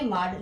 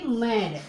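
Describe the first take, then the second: First: माड with a long open aa; wrong reading, माड as "maad"; mispronounced MAD. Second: मैड with an "ai" vowel; correct MAD pronunciation. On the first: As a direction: say माड with the vowel of "father". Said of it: "गलत है". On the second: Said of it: "यहाँ पे ऐ करके बोलेंगे". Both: Shown as a demonstration.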